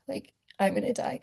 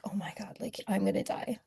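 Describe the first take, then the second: First: Said in the usual way. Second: Breathless hushed whisper, much softer; terrified whisper. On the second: Retold or imitated. Retelling her panic as the abuser rushes in, whispered. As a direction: whisper it like death is coming through the door.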